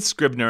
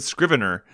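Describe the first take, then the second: First: "Scrivener" squeezed into two syllables, SCRIV-ner; film character's pronunciation. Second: "Scrivener" in three syllables, SCRIV-en-er; own pronunciation. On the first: Comparing how the film said it, "Scrivener" as SCRIV-ner. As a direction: say "Scrivener" without its middle vowel. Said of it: "'cause he said Scrivener". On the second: Correcting to own version, "Scrivener" as SCRIV-en-er. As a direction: say "Scrivener" with its middle vowel sounded. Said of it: "and I said Scrivener". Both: Shown as a demonstration.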